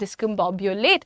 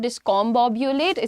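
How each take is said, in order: First: The second syllable has a short 'uh' vowel. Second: The second syllable has an open 'o' vowel. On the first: The speaker calls it right. "It's डिस्कम्बोब्यूलेट" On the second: The speaker calls it wrong. "It's not डिस्कॉम्बोब्यूलेट"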